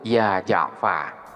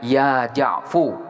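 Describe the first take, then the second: First: The name ends with an 'a' vowel. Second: The name ends with a 'u' vowel. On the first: The dropped letter is still assumed to be there. "maka harkat pada fa di sini ditetapkan" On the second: The shortened name is treated as complete. "hukumnya adalah mabni dhammah. Jadi langsung dibaca ya Ja'fu"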